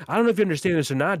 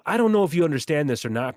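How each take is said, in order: First: Rapid retold jab. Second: Said in the usual way. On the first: Retelling his jab to Otis, rushed and fast. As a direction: fire it off fast. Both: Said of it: "but I said this yesterday to Otis".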